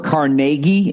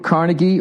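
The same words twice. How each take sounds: First: The name is said the local Pittsburgh way. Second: The name is said the general, non-local way.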